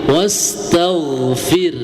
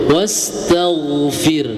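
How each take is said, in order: The two takes are said the same way.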